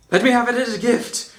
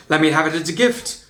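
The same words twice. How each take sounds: First: Higher, quick pleading prince; lovesick prince. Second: Said in the usual way. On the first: A narrator's reading. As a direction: beg like a smitten prince. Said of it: "perfect voice for that".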